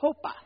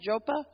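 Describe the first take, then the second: First: The name is pronounced the Spanish way. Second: The name is pronounced the English way. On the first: "In Spanish, it's" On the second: "how do you pronounce it"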